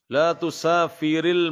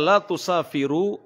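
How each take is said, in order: First: The verb ends with an i vowel. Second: The verb ends with a u vowel. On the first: It forbids a woman from traveling. "Kenapa saya baca dikasrohkan roknya" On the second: It states that she does not travel. "bukan didomahkan"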